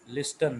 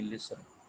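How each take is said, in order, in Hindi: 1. बीच में "t" की आवाज़ बोली जाती है। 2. बीच में "t" की आवाज़ छोड़ दी जाती है। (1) "लिस्टन नहीं" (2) "इसमें टी साइलेंट है"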